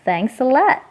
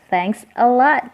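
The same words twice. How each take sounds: First: The final s links smoothly into the next word. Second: Each word is said separately, without linking. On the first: "kalau mau lebih keren lagi kedengarannya" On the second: "Ini bisa kalian sebut pisah juga"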